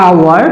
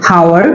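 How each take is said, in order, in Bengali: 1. শব্দটি একটি স্বরধ্বনি দিয়ে শুরু হয়। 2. শব্দটি 'h' ধ্বনি দিয়ে শুরু হয়। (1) "এটা আওয়ার" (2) "নট হাওয়ার"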